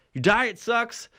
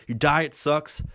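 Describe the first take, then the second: First: "Your diet sucks" pitched higher, with a rise on "diet"; second, more indignant take of "Your diet sucks"; emphatic repeat. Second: Said in the usual way. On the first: Real, not acted. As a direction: hammer the insult home, climbing on "diet". Repeats the insult, louder stress.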